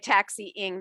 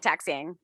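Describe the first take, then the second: First: The word is said slowly with every syllable clear. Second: The word is said fast with syllables run together. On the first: "most people just don't say taxiing" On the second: "they say taxiing. And they say it so fast"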